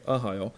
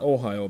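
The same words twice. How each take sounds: First: "Ahio" opening on a soft uh; biblical name Ahio. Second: "Ohio" with a clear long O first; town name Ohio. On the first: Preacher corrects the Bible name, Ahio with uh first. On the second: Preacher shows which name it isn't, Ohio with OH. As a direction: say "Ohio" opening on OH. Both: Shown as a demonstration. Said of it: "not Ohio, by the way, Ahio".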